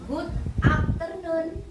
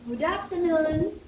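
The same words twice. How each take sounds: First: The two words are said separately with a break. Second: The two words are linked together smoothly. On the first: The speaker calls it wrong. "jangan biasakan menyatakan good afternoon" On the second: The speaker calls it right. "tapi kita satukan good afternoon"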